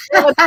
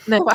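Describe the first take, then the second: First: Never, louder and stressed, through a laugh; emphatic never. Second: Said in the usual way. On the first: Shown as a demonstration. Presenter warning beginners, repeating with laughing emphasis. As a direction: hit Never hard, laughing. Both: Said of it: "don't begin with such a complicated one".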